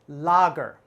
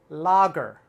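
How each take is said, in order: No difference in how they are said.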